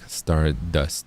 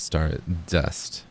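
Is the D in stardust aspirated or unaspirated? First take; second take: unaspirated; aspirated. First: The D sound is soft and unaspirated. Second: The D sound has a puff of breath. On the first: The speaker calls it wrong. "instead of like stardust" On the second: The speaker calls it right. "it would be better if it were like an aspirated D sound"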